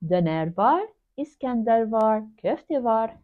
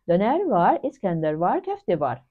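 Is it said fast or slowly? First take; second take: slowly; fast. First: It is said slowly. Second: It is said fast.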